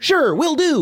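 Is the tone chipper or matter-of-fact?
chipper. It is said in a chipper, upbeat tone.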